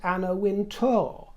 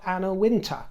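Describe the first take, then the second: First: The surname ends with a 'tour' sound. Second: The surname ends with a 'ter' sound. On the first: The speaker calls it right. "It's Tour, T O U R" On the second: The speaker calls it wrong. "not Anna Winter"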